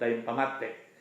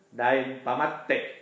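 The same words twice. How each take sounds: First: The final e is not stressed, the t short. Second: The final e is stressed, the t doubled. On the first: The speaker calls it wrong. "Jangan jadi jangan di, disebut" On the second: The speaker calls it right. "double T, tekan E di belakang"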